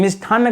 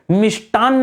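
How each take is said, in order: First: मिष्ठान्न with an aspirated ठ; wrong form. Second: मिष्टान्न with a hard unaspirated ट and doubled न्न; correct pronunciation. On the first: Teacher showing students the common mistake, aspirated ठ. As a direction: breathe out on the ठ in मिष्ठान्न. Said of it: "मिष्ठान्न गलत है". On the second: Teacher giving students the right spelling, clear and firm. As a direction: say मिष्टान्न crisply, plain ट, held न्न. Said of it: "मिष्टान्न होना चाहिए". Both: Shown as a demonstration.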